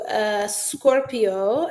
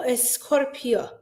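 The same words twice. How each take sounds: First: Drawn-out announcement. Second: Said in the usual way. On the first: Shown as a demonstration.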